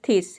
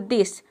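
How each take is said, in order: First: It begins with a voiceless th sound. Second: It begins with a voiced th sound. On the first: The speaker calls it wrong. "पहले आपने pronounce किया थिस, तो आपको लगेगा कि थिस नाम का कोई वर्ड नहीं होता है" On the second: The speaker calls it right. "टीएच को आपने द प्रोनाउंस किया तो दिस"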